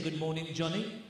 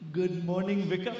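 First: Said in the usual way. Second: Put-on Pakistani accent; little boy's line in a mock Pakistani accent. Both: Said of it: "you're talking with a Pakistani accent".

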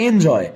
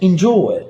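First: এনজয় with an open "en" and "joy"; এনজয় beginning on a clear e; old mispronunciation. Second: এনজয় as "in-jo-e", starting on short i; এনজয় said "injoe"; corrected pronunciation. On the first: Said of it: "আগে আপনারা বলতেন হয়তো এনজয়". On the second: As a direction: model এনজয় with a rounded o gliding to e. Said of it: "এটা উচ্চারণ হচ্ছে". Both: Shown as a demonstration.

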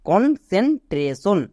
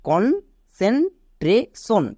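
First: কনসেন্ট্রেশন said all together, still slow; showing how to blend it; blended whole word. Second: কনসেন্ট্রেশন split into slow separate syllables; teacher spelling out each part. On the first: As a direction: join the parts of কনসেন্ট্রেশন into one word. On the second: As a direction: break কনসেন্ট্রেশন up, very slowly. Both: Shown as a demonstration. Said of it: "এবার একে একসাথে উচ্চারণ করো".

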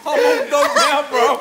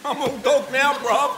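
First: Louder, laughing through the boast; hyping himself up, cracking up; laughing brag. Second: Said in the usual way. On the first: Real, not acted.

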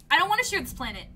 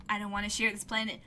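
First: "want" pushed higher and louder; stress on want. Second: Said in the usual way. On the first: Shown as a demonstration. Friend refusing to share the planet, stress on "want". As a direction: lean hard on "want".

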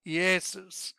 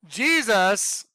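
First: "Jesus" said as "Iesus", no J sound, vowel start; Iesus pronunciation. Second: Said in the usual way. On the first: Shown as a demonstration. Preacher showing the class the Greek "Jesus" as "Iesus". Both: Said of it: "It's pronounced Iesus".

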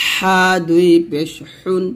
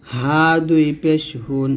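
First: Tight-throated h in হুন; slow pharyngeal হা; pressed ha. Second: Said in the usual way. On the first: Shown as a demonstration. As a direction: press হা and হুন with thin air, slowly. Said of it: "এই হাটা আমরা কিন্তু চাপ দিব". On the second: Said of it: "নরমালভাবে উচ্চারণ করব".

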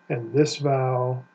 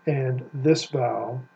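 The two takes are said the same way.

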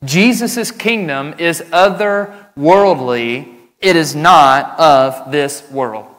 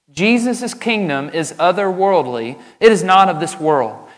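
First: Slow, loud, deliberate first statement; preacher stating his first point slowly and loudly; slow emphatic statement. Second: Said in the usual way. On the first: Shown as a demonstration. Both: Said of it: "Trait number one".

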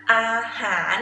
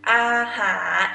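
No difference in how they are said.

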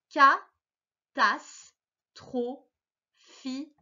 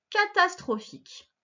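First: Catastrophique drawn out very slowly, syllable by syllable; syllabified reading. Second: Said in the usual way. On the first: Shown as a demonstration. Teacher sounding out catastrophique for a young reader. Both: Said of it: "Je vais les lire avec toi".

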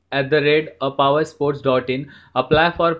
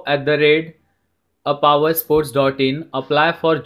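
The two takes are said the same way.

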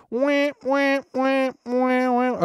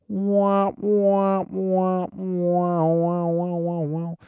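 First: Squeaky, very high mouthed trombone; womp-womp octave higher. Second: High-pitched mouthed trombone, sliding down at the end; sad trombone womp-womp. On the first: Retold or imitated. Podcaster mocking the kid's out-of-key playing, high-pitched womps. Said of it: "octave higher. He's like". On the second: Shown as a demonstration. Podcaster showing how the joke is supposed to sound, trombone womps. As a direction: sing out drawn womps like a muted horn. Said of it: "it's supposed to be like".

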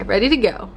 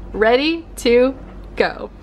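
First: Said in the usual way. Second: Deliberate, spaced-out "Ready... to... go"; slow emphatic repeat. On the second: Pretend. Emphatic repeat of her own phrase.

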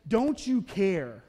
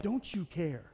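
First: Very slow, drawn-out accusing question; hurt complaint. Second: Said in the usual way. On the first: Retold or imitated. Martha finally confronts Jesus, slow and aggrieved. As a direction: lean on each word, wounded.

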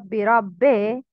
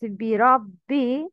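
First: بربي ending in "bay" instead of "bee"; incomplete kasra. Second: بربي ending in a clear long "ee"; complete kasra. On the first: Teacher showing the mistake, "eh" ending on بربي. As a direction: open the last vowel of بربي to "eh". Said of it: "not بربي". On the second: Teacher showing the kasra, full "ee" ending on بربي. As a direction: finish بربي on a full "bee". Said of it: "Complete the كسرة". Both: Shown as a demonstration.

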